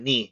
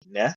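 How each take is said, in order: First: The vowel is a closed 'ee' sound. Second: The vowel is an open 'eh' sound. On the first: The speaker calls it wrong. "not ni" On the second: The speaker calls it right.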